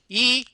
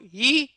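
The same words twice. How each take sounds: First: The vowel is voiced with a tight, squeezed sound. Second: The vowel is voiced cleanly, neither airy nor tight. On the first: "this is pressed phonation" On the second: "That's le lute vocale... the sweet spot between pressed and breathy"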